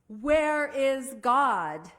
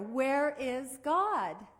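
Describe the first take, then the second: First: It is said loudest, with a raised voice. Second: It is said a little louder.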